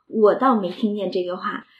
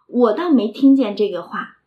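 First: Xiren coyly denies to Madam Wang, leaning on 倒; stress on 倒. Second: Xiren flatly denies to Madam Wang, leaning on 听; stress on 听. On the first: 袭人故作不知，重读"倒"字. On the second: 袭人否认，重读"听"字. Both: Shown as a demonstration. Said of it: "他明白听到了".

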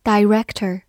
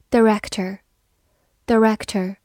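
First: Director with a long first vowel, dye-REK-ter; alternative pronunciation. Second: Director with a weak first syllable, duh-REK-ter; reduced first vowel. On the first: Teacher giving learners the other reading, director said dye-REK-ter. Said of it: "或者读作". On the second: Teacher drilling a word for learners, Director said duh-REK-ter. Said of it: "或者读作director". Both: Shown as a demonstration.

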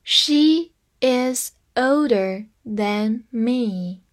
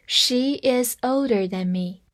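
First: Slow, careful teaching read; teacher modelling slowly; slow demo. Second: Said in the usual way. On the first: Shown as a demonstration. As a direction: read "She is older than me" very slowly. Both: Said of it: "所以than就放在比较级的后面了".

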